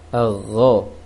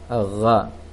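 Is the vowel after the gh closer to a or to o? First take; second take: o; a. First: The vowel after gh leans toward o. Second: The vowel after gh sounds like a. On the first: The speaker calls it right. "seharusnya agho, agak mengarah ke o" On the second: The speaker calls it wrong. "namun gho-nya terbaca gha"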